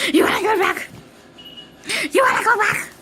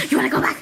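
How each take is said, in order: First: High, loud teasing call; high playful shout. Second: Said in the usual way. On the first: Real, not acted. Repeating, louder each time.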